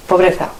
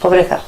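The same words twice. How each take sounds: The two takes are said the same way.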